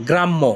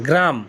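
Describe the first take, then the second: First: গ্রাম্য with a held double m and a short vowel at the end; teacher showing Italian গ্রাম্য; Italian grammo. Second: Said in the usual way. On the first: Shown as a demonstration. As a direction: say গ্রাম্য the Italian way, not like the village word. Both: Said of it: "এই গ্রাম কিন্তু গ্রাম না".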